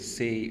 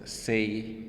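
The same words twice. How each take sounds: First: The vowel stays on one steady sound. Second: The vowel glides from one sound to another. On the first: "in Indian English, we say say" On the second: "list of diphthongs"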